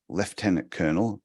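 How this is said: Lieutenant is said the British and Australian way. "Australia and Britain says lieutenant colonel"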